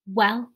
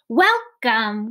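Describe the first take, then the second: First: It is said very quietly. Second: It is said very loudly.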